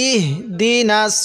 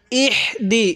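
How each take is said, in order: First: "ইহ দি নাস" with a soft breathed h and long di; correct soft h. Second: "ইহ দি" with a tight, rasped h before di; mistaken harsh h. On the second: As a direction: scrape the h in "ইহ দি" as a learner's error. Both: Shown as a demonstration. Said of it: "এরকম করে পড়বেন না".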